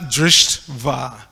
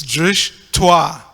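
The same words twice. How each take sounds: First: "drishtva" split as drisht, va, with the t closing the first part; wrong syllable break. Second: "drishtwa" split as drish, twa, with the t starting the second part; correct syllable break. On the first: Correcting others' Sanskrit, "drishtva" wrongly broken as drisht-va. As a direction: say "drishtva" slowly as DRISHT, pause, VA. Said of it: "it's not drishtva". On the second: Giving a Sanskrit hint, "drishtwa" broken as drish-twa. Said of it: "break the words into syllables". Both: Shown as a demonstration.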